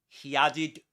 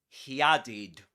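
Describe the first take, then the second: No difference in how they are said.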